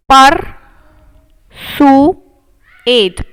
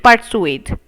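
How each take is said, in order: First: persuade drawn out very slowly, louder; slow sounding out. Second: Said in the usual way. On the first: Shown as a demonstration. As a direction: stretch every sound of persuade.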